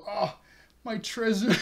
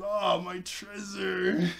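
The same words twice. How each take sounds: First: Mock dismay. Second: Slow mock lament. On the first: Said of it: "she goes". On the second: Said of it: "but she says".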